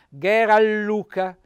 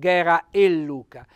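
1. Le parole si uniscono, senza vocale in più. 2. Tra le parole si pronuncia una vocale in più. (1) "cade la E perché si pronuncia Ghera Luca" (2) "non Ghera e Luca"

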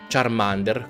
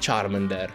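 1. Il nome si dice con una pronuncia all'italiana. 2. Il nome si dice con una pronuncia all'inglese. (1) "non si pronuncia Charmander, come dicono nel doppiaggio nuovo dell'anime" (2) "Si pronuncia Charmander"

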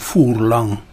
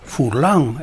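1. L'accento cade sulla prima sillaba. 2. L'accento cade sull'ultima sillaba. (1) "e non Furlan" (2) "Furlan e non Furlan"

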